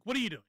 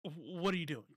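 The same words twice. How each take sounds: First: Said in the usual way. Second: A quiet, baffled what-are-you-doing; incredulous mutter. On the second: Retold or imitated. Reacting to a doomed impeachment bid, quiet disbelief. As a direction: mutter it under your breath in disbelief. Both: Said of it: "That's my, that's my initial instinct".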